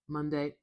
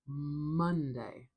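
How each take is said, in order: First: Both syllables get equal stress. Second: The stress is on the first syllable. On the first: The speaker calls it wrong. "or even like, oh, it's going to be hard for me to say it even. It sounds so robotic" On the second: The speaker calls it right. "I have the stress at the beginning of this word"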